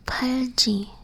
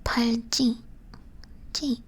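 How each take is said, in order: First: 팔찌 with an undoubled J; single-consonant sound. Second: 팔찌 with a hard, tense double 찌; 팔찌 with the harder G sound; double-consonant sound. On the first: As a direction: say 팔찌 as if the 찌 were a plain 지. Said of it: "if it was just this". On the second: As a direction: tighten the 찌 in 팔찌, then repeat it alone. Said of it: "this one would be like". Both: Shown as a demonstration.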